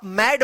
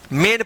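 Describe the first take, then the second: First: "मैड" with an open ai vowel; mispronounced MAIN. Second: "मेन" with a long closed e; AI read as E. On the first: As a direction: misread "मैड" with the vowel of mad. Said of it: "इसको आप मैड मत पढ़िएगा". ("मैड" को खुले 'ऐ' स्वर से गलत बोलें) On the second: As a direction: say "मेन" as mayn, vowel like pay. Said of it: "दोनों का उच्चारण ए आप करिएगा". ("मेन" को लंबे 'ए' स्वर से बोलें) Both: Shown as a demonstration.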